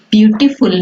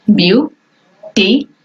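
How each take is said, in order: First: Said in the usual way. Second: ब्यूटीफुल split into three syllables, ब्यू, टी, फुल, with pauses. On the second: Shown as a demonstration. Teacher showing the three syllables in ब्यूटीफुल, each said separately. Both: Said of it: "तीन syllables होते हैं".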